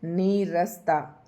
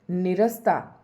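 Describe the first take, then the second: First: नीरसता drawn out very slowly with a long नी; correct long vowel. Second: निरस्ता with a short नि; wrong short vowel. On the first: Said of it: "इसमें नीरसता है". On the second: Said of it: "निरस्ता नहीं है". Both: Shown as a demonstration.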